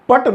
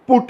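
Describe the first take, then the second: First: The word is said with a short 'uh' vowel. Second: The word is said with an 'oo' vowel. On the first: The speaker calls it wrong. "ये पट नहीं है" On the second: The speaker calls it right. "बल्कि पुट है"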